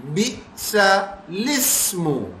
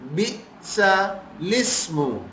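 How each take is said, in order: First: The L sound begins the second word. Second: The same.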